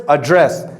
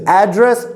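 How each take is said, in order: First: "address" as uh-DRESS, stress on the second syllable; weak first vowel in "address", weight on DRESS; verb stress. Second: "Address" as AD-dress, higher on the first syllable; noun stress. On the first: Teacher contrasting verb with noun, "address" stressed at the end. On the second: Teacher contrasting noun with verb, "Address" stressed up front. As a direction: punch the opening syllable of "Address" with a full A. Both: Shown as a demonstration. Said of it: "So it changes".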